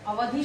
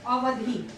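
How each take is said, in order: First: अवधि with a short last vowel; short final i. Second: अवधि said as अवधी, with long ee at the end; long final ee. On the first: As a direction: end अवधि on a brief इ. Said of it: "छोटी की मात्रा के साथ". (अवधि में छोटी इ की मात्रा) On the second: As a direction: draw out the final vowel of अवधि as it falls. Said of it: "बड़ी की मात्रा के साथ". (अवधि को बड़ी ई से, अवधी बोलें) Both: Shown as a demonstration.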